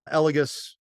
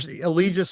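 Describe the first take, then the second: First: The name is said the European way. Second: The name is said the American way. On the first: "would be the European version" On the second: "is the U S version"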